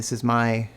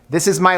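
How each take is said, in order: First: It is spoken at a quiet volume. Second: It is spoken at a loud volume. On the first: "my quiet voice" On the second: "This is my louder voice"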